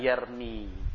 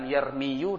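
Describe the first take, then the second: First: The word ends without a final vowel. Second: The word ends with a final 'u' vowel. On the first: This form feels lighter to say. The speaker calls it right. "Maka dhammah ini diganti sukun" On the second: This form feels heavy to say. The speaker calls it wrong.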